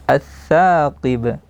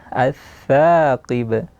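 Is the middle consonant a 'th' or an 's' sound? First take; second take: th; th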